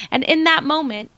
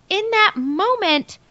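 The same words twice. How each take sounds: First: Said in the usual way. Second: "in that moment" slower and higher, stretched out; dramatic repeat. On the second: Shown as a demonstration. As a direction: draw out "that moment" for suspense.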